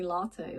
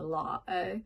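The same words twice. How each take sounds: First: The T in the middle is clearly pronounced. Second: The T in the middle is dropped. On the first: This is the word as it is meant. "he was saying latte" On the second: This is how it was actually said. "but he said latte"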